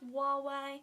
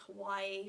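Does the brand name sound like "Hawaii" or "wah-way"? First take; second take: wah-way; Hawaii. First: It sounds like "wah-way". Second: It sounds like "Hawaii". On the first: This is how the speaker thinks the name is said. "I think it's pronounced Huawei" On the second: This is how someone else said the name. "The guy in the store was pronouncing it as Hawaii"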